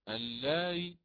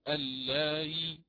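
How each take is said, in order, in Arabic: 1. الحركة بعد الهمزة تُختلس اختلاسًا شديد القصر. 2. الحركة بعد الهمزة تُنطق كاملة. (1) "هكذا بثلث حركة" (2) "ليست اللائي هكذا كاملة"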